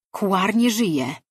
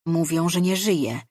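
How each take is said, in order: First: Higher and louder, slow, weight on "nie"; grave confirmation. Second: Said in the usual way. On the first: Acted. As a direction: press "nie żyje" slowly, like final news. (powoli i dobitnie, z naciskiem na „nie”) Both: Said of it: "stwierdziła Diara".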